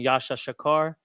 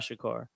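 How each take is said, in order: First: The doubled syllable is said twice, separately. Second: The doubled syllable flows together as one. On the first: The speaker calls it wrong. "instead of saying Yasha Shakar" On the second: The speaker calls it right. "sometimes it flows like that"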